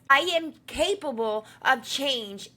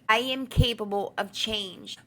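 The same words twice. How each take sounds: First: It is said in a strong, energetic voice. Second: It is said in a calm, plain voice. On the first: The words are embodied with emotion and conviction. "you use your strong voice and the energy in your chest" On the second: It is a simple positive statement. "an affirmation, you would say something like"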